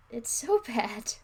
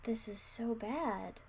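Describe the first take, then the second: First: Very slow and louder, the word "so" punched hard; loud dismay. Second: Very slow, the word "bad" dragged and falling; dismayed groan. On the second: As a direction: savour "bad" slowly, in mock despair. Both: Real, not acted.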